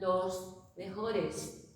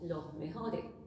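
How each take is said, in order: First: The final S sounds are fully pronounced. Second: The final S sounds are breathy aspirations. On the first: This is not how the local speakers say it. "Nosotros no decimos" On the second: This is how the local speakers say it. "decimos ... la aspiración de la S"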